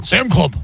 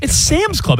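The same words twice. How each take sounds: First: Sam Club with no s on Sam; caveman mispronunciation. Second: Sam's said with a clear final s; correct pronunciation. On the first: Retold or imitated. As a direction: drop the s from Sam's, said bluntly. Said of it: "you sound like a caveman". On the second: Shown as a demonstration. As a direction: stress the s in Sam's. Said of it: "It's not Sam Club".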